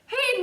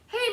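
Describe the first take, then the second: First: It is yelled much louder. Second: It is called out at a normal yelling volume.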